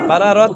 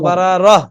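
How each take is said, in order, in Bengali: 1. শব্দটি t ধ্বনি দিয়ে শেষ হয়। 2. শব্দটি h ধ্বনি দিয়ে শেষ হয়। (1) "বারারত না তো" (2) "গোলতা হা হয়ে যাবে না? ... বারারহ"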